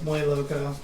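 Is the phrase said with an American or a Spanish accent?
Spanish. It is said with a native Spanish accent. The speaker calls it right. "instead of"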